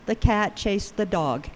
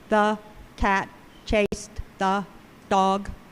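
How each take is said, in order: First: The word 'the' has a small, reduced vowel. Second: The word 'the' has a full, unreduced vowel. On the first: The speaker calls it right. "So we know that the is reduced" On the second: The speaker calls it wrong. "I never say"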